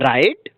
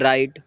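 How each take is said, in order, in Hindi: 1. यह उत्साह से, ऊपर उठते प्रश्न वाले लहजे में बोला गया है। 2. यह रोती हुई, रोने जैसी आवाज़ में बोला गया है। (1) "एक्साइटेड में क्वेश्चन के टोन में" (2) "ऐसे रोते हुए बोल दो"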